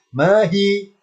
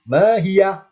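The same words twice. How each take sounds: First: "mahi" raised, open hi at the end; without ha. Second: "mahiyah" raised, ending on yah with an h; with ha sukun. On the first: Teacher comparing forms for students, no ha at the end. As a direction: say mahi with nothing after the i. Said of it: "kalau nggak ada ha". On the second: Teacher showing the word with ha sukun added, yah ending. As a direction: close mahiyah on a breathed yah. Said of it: "ketambahan ha sukun". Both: Shown as a demonstration.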